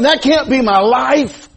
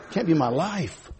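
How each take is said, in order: First: Higher, louder, slow preached declaration; emphatic. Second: Much softer, slow murmured echo; quiet echo. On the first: Preacher insists to the church, loud and slow. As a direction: hammer it home. Preached line then echoed softly. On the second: Preacher softly repeats to the church, hushed. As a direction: let it sink in, hushed. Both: Acted.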